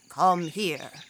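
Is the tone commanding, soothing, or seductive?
commanding. The tone is firm and commanding. A superior is giving an order. "a boss may say"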